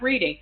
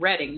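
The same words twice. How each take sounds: First: The first vowel is long, as in 'reed'. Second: The first vowel is short, as in 'red'. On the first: It is the ordinary verb. The speaker calls it wrong. "not reading" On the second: It names the town. The speaker calls it right. "I said it right that time"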